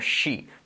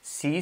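First: The word starts with a strong sh sound. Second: The word starts with a plain s sound. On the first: The speaker calls it right. "la J y también la SH" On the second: The speaker calls it wrong. "no es sí"

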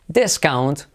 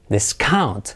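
First: The stress is on the first syllable. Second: The stress is on the second syllable. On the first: It is used as a noun. "acentuamos la primera sílaba como nombre" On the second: It is used as a verb. "como verbo"

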